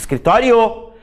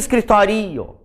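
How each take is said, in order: First: The o sounds stronger than the i. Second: The i sounds stronger than the o. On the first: The speaker calls it right. "eu digo escritório" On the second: The speaker calls it wrong. "eu não digo escritório"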